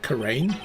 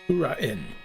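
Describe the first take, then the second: First: The last vowels blend into one syllable. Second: The last vowels are split into separate syllables. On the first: The speaker calls it wrong. "I'm pronouncing it Kurain" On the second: The speaker calls it right. "but it's probably Kura-in"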